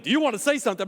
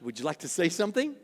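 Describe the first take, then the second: First: Curt, pushy question; impatient demand. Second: Softer, lower, kindly asking; gentle invitation. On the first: Pastor showing the wrong way to ask a spouse, curt and irritated. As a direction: push the spouse to talk, irritated. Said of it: "I don't mean". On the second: Pastor showing the kind way to ask a spouse, gentle and soft. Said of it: "But I mean just like". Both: Shown as a demonstration.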